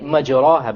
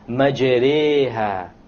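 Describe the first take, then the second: First: The vowel after the r is a plain open a. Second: The vowel after the r leans toward e. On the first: The speaker calls it wrong. "If you were to not know what an imala is, you would say majraha, but that's a mistake" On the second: The speaker calls it right. "You have to pronounce it with an imala. An imala is pronounced as this"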